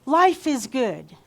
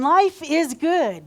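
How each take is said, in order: First: Slow, emphatic call to repeat; sermon call-and-response, slowed; call for repetition. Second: Higher, louder and slow; louder, slower call to repeat; emphatic repeat. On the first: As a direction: lead the room, slow and firm. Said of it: "say after me". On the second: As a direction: push it out to the room. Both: Shown as a demonstration.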